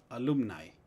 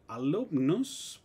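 First: Alumni con ai final. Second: Alumnus lento, con us final. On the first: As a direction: di alumni terminando en ai. (alumni en plural) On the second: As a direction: di alumnus despacio marcando us. (alumnus en singular) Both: Shown as a demonstration. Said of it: "palabras terminadas en U S".

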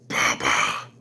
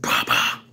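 First: Very low, eerie monster voice saying Papa; low spooky creature voice; creepy monster baby. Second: Breathy, eerie Papa in a whisper; spooky whispered creature; whispered monster voice. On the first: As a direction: growl Papa out deep like a monster child. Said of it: "and say". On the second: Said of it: "it says". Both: Retold or imitated.

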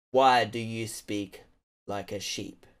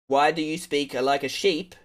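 First: "Why do you speak" drawn out slowly, word by word; measured, softer mock interrogation; slow, deliberate questioning. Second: Said in the usual way. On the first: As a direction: ask slowly and low, as if to someone dim. Asks again, slowly spelling out.

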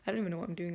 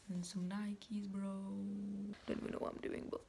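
First: Said in the usual way. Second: Whispered, barely voiced; whispering. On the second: Shown as a demonstration. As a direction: whisper it under your breath.

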